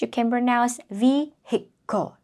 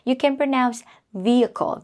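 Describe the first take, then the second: First: It uses an alternative pronunciation heard only in American. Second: It uses the usual pronunciation found in both accents. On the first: This is an acceptable but less common form. "but also in American English, just in American English" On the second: This is the common form everywhere. "usually for American English and British English"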